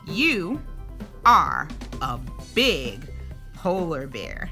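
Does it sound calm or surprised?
surprised. It is read with a surprised, excited tone.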